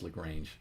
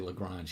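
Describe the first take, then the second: First: It is not said like the French name. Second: It sounds like the French mathematician's name. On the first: The speaker calls it right. "even though I know it's Lagrange" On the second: The speaker calls it wrong. "I always say Lagrange"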